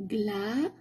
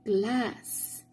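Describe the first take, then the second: First: Teacher prompting pupils to add the sound, GLA cut before its S; final S left off. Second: "Glass" completed with a hissed S at the end; final S sounded. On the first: Teacher leaves glass unfinished for pupils, final S left off "Gla". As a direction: say "Gla" with no S at the end. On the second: Teacher completing the word for pupils, final S sounded in "Glass". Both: Shown as a demonstration. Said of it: "put the S sound".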